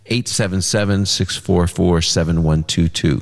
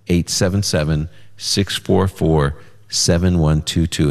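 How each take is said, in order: First: The number is read at a faster pace. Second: The number is read at a slower pace.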